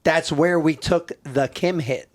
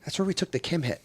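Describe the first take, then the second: First: \"That's where we took the Kim hit\" said slowly through laughter; laughing repeat. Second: \"That's where we took the Kim hit\" said much softer, nearly under the breath; quiet aside. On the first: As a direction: drag it out, cracking up. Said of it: "And I'm like". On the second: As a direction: mutter it quietly to the guy beside you. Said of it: "and I'm like". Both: Retold or imitated.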